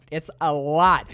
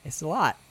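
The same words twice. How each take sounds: First: "lot" drawn out slowly; stress on LOT. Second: Said in the usual way. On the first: Real, not acted. Host underlining how much the movie is, stress on "lot". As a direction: lean hard and long on "lot". Repeating the remark for emphasis.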